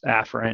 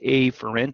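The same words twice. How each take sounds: First: The first vowel is a plain short vowel. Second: The first vowel sounds like the letter A. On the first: "it's actually pronounced afferent" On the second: "I like afferent because A"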